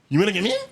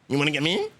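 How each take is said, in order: First: It is said loudly, at a higher pitch. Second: It is said quietly, at a lower pitch.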